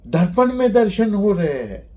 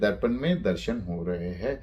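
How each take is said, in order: First: It is said with an exclaiming tune. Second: It is said as a plain statement.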